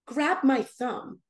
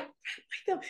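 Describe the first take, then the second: First: Slow, measured instruction; Jesus's voice. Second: Higher, whispered disbelief; weirded out. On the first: Jesus speaking to her at the altar, slow and deliberate. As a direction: say it slowly and plainly, as a divine command. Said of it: "I hear his voice say". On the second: Puzzled by the strange request, incredulous whisper. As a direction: echo it in a baffled whisper. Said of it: "I found it so weird". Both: Retold or imitated.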